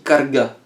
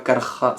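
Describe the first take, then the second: First: The middle consonant is a hard g sound. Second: The middle consonant is a raspy j sound. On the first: "tu dis carga" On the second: "et pas carja. C'est le J"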